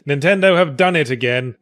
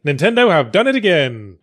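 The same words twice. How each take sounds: First: "NINTENDO have done it again" with weight on "Nintendo"; corrected emphasis. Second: "Nintendo have done it AGAIN" with weight on "again"; wrong emphasis. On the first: Comedian redoes the line, stressing "Nintendo". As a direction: hit "Nintendo" first and hard. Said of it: "wrong emphasis". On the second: Comedian flubs the line, stressing "again". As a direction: lean on "again", not "Nintendo". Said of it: "Oops, sorry, wrong emphasis". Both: Shown as a demonstration.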